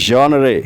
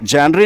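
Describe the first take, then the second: First: It begins with a soft zhon sound. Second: It begins with a hard jen sound. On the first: The speaker calls it right. "बल्कि बोलते हैं जॉनरे" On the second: The speaker calls it wrong. "इसको जैनरी नहीं कहते"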